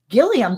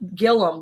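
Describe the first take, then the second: First: The name ends in an 'ee-um' sound. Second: The name ends in a plain 'um' sound. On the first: This is how the spelling suggests it should be said. "that's what it should be" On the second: This is how people from Oklahoma say it. "Gillum with a U"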